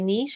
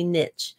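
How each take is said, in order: First: It uses the pronunciation common outside the US. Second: It uses the American pronunciation.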